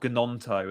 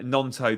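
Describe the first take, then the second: First: The initial G is sounded. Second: The initial G is silent. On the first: The speaker calls it wrong. "it's not Gnonto, as I've heard people say" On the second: The speaker calls it right. "the G silent"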